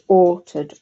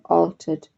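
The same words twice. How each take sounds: First: The first vowel is a rounded 'or' sound. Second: The first vowel is an open 'ah' sound. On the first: "you might say altered" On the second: "with a bit more of an ah"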